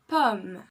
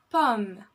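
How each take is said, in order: The two takes are said the same way.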